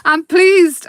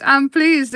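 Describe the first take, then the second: First: Excited. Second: Said in the usual way. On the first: Real, not acted.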